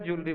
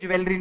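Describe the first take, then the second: First: The word starts with a 'joo' sound. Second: The word starts with a 'jweh' sound. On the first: The speaker calls it right. "हर समझदार व्यक्ति पढ़ा लिखा ज्वेलरी बोलता है" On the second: The speaker calls it wrong. "कोई ज्वेलरी नहीं बोलता बोलते समय"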